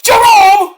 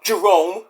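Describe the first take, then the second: First: High, loud mock shriek of a name; Missy Hyatt. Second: Said in the usual way. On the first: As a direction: call out in a squealing impression. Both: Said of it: "Missy Hyatt was like".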